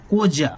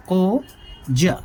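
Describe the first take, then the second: First: Said in the usual way. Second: कोजा drawn out very slowly, syllable by syllable; slow repeat. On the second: Shown as a demonstration. Teacher repeating the term slowly for students. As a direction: stretch the word so students catch it.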